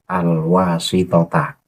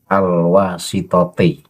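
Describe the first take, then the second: First: The word ends with an 'a' vowel. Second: The word ends with an 'i' vowel. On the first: The word is read as a second object. The speaker calls it right. "Yang tepat adalah al-wasitota" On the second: The word is read in the genitive case. The speaker calls it wrong. "dibaca jar dengan harokat kasroh di akhir lafadznya. Itu tidak tepat"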